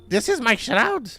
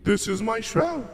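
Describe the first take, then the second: First: It is said in the old grandmother's voice. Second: It is said in a new, different character voice.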